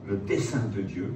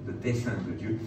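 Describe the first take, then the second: No difference in how they are said.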